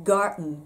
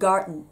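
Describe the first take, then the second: First: The d before the n is swallowed. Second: The d before the n is swallowed.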